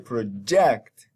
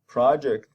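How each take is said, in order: First: The stress is on the second syllable. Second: The stress is on the first syllable. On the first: "then jacked is stressed" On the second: "the first syllable is stress, pro"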